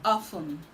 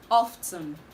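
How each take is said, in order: First: The T sound is left out. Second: The T sound is clearly pronounced. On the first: The speaker calls it right. "The T in this word is silent" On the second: The speaker calls it wrong. "This word is commonly pronounced often"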